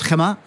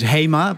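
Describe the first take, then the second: First: The name is said with a Spanish pronunciation. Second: The name is said with a Dutch pronunciation. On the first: This is how Spanish customers say it. "our Spanish customers call it Gemma" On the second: This is how Dutch speakers say it. "the Dutch way of pronouncing it is HEMA"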